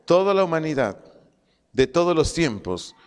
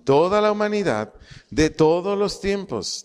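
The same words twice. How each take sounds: First: Said in the usual way. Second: "toda" and "todos" stretched out for emphasis; emphatic repetition. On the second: Shown as a demonstration. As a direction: lean long on "toda" and "todos". (repetición enfática, alargando "toda" y "todos")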